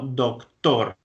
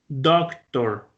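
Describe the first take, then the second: First: The stress is on the second syllable. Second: The stress is on the first syllable. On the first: This is the Spanish pronunciation. "Miren que la fuerza está en la segunda sílaba" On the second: This is the English pronunciation. "empiezo con la voz arriba y voy cayendo"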